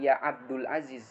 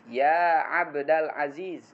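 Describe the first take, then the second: First: Abd is followed by a vowel other than a. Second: Abd is followed by the vowel a. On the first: The speaker calls it wrong. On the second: The speaker calls it right. "abda munada mansub"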